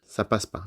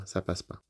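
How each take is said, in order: First: Said in the usual way. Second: Much softer, trailing away; fading repeat. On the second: Real, not acted. Telling his audience it won't work, voice dying away. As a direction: let the repeat fade out almost to nothing.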